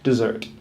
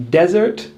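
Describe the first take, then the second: First: "dessert" as di-ZERT, lower and falling; stress on second syllable. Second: "Desert" as DEZ-ert, higher and rising; stress on first syllable. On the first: Teacher contrasting the two words, second syllable stressed. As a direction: drop "dessert" down with weight on ZERT. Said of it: "stress on the second syllable". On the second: Teacher contrasting the two words, first syllable stressed. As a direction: lift "Desert" with weight on DEZ. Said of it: "stress on the first syllable". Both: Shown as a demonstration.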